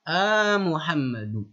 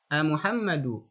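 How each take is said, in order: First: The opening call sound is drawn out and projected. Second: The opening call sound is short and plain. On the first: The person being called is far away. "untuk menunjukkan lil ba'id. Jadi intonasi nadanya pun berbeda" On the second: The person being called is nearby. "jadi Pak Muhammad itu dekat posisinya"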